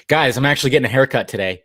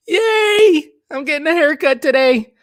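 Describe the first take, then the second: First: Said in the usual way. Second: Much higher, louder squeal of glee; hammed-up excitement. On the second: Streamer telling chat about his haircut, mock squealing with glee. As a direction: play up the joy like a kid. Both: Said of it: "I am so excited".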